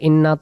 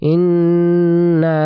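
First: The final vowel is cut short. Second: The final vowel is drawn out long. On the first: The speaker calls it wrong. "তাহলে উচ্চারণগুলো ভুল হয়ে যাবে" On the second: The speaker calls it right. "টেনে পড়তে হবে, প্রথমে গুন্না পরে টান"

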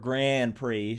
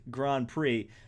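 First: Grand Prix is said with an American pronunciation. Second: Grand Prix is said with a French pronunciation. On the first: The speaker calls it right. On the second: The speaker calls it wrong.

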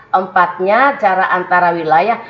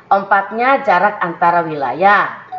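The two takes are said the same way.

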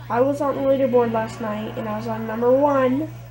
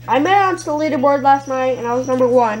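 First: It is said slowly. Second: It is said fast.

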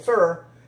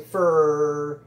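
First: The vowel is reduced to a short uh sound. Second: The R sound at the end is drawn out. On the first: "a veces uno dice for o fur" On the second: "se dice for y se alarga la R"

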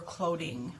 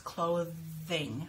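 First: The middle consonant is not a th sound. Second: The middle consonant is a th sound. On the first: The speaker calls it wrong. "You wanna make sure you're not saying clothing" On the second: The speaker calls it right. "It's clothing. My tongue comes out in the middle"

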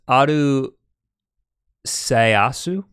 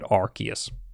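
First: The name is said with Japanese-style syllables. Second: The name is said with English-style syllables. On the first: "We confirmed that in Japanese" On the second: "in the trailer in English, they call it"

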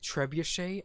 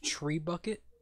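First: It is said like treb-oo-shay, ending in shay. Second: It is said like the words tree bucket. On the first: "Like trebuchet?" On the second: "it's not pronounced tree bucket?"

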